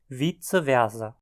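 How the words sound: German-style, with German Latin sounds. "em áreas falantes de alemão"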